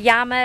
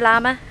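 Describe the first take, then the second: First: It is said with a Spanish pronunciation. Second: It is said with an English pronunciation.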